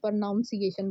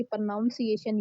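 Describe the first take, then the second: First: "pronunciation" said as pro-NOUN-ciation, with the "noun" sound; pronunciation mispronounced with "noun" in the middle; wrong pronunciation. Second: "pronunciation" said slowly as pro-NUN-ciation, with "nun"; teacher's careful correct pronunciation. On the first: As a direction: mimic the common mistake "pronounciation" for "pronunciation". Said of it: "भई, आपकी pronunciation ये है". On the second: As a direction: model the right "pronunciation", slow and clear. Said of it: "आपकी pronunciation ये है". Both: Shown as a demonstration.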